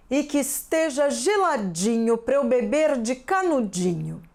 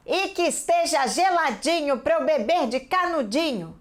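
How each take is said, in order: First: A different, lightly voiced cow; another cow voice. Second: A bit higher, mildly bossy cow line; changed intonation for speech. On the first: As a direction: do the line as a second cow. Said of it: "Vou fazer outra vaca agora". (professora faz outra voz de vaca) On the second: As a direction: mark the quote as a character speaking. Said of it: "Percebam a minha entonação". (professora lê a fala da vaca com entonação marcada) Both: Shown as a demonstration.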